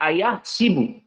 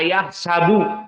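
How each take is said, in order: First: The s is followed by an i vowel. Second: The s is followed by an a vowel. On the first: "di sini kasroh sin" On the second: "Tidak dibaca ayah sabu"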